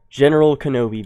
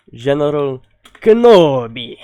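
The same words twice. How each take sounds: First: Said in the usual way. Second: Hammed-up movie accent, Kenobi burst out much louder; best movie accent attempt. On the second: Shown as a demonstration. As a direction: ham up the famous movie line in a put-on accent, ending in a loud burst. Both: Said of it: "That was my best accent".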